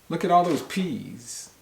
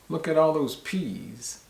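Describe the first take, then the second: The two takes are said the same way.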